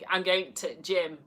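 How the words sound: The word 'the' is left out before gym.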